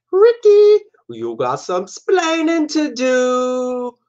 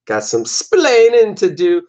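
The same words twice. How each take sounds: First: High, slow mock Cuban accent, stretching splaining; Cuban accent impression. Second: Said in the usual way. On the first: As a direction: imitate Ricky Ricardo's Cuban accent, high and drawn out. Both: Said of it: "I grew up watching I Love Lucy reruns".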